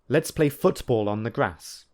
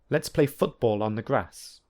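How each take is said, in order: First: The t in football is a clear t. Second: The t in football is a glottal stop. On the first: "I will firstly use t" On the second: "and secondly use the glottal plosive"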